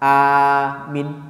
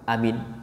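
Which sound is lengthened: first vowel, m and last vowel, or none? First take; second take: first vowel; none. First: The first vowel is long, the last short. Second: Every sound is short and quick. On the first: "Aminnya A-nya panjang, tapi minnya singkat" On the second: "Yang simpel lagi"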